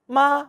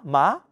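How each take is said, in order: First: The pitch stays high and level. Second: The pitch rises from mid to high.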